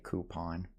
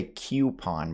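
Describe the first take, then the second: First: "coupon" as KOO-pon; own pronunciation. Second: "coupon" as KYOO-pon; other people's pronunciation. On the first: Shown as a demonstration. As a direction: say "coupon" with a plain OO. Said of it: "but I would say". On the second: Retold or imitated. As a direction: say "coupon" with a Y glide after K. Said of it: "I know some people say".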